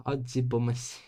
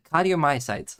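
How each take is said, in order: First: Cardiomyocytes mumbled and slurred, half swallowed; a garbled cardiomyocytes; fumbled first try. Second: Cardiomyocytes said out clearly and louder, every syllable kar-dee-oh-my-oh-sites; Cardiomyocytes, crisp and complete; careful full pronunciation. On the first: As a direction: stumble through cardiomyocytes with a laugh. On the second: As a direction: get Cardiomyocytes right this time, with a laugh. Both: Shown as a demonstration.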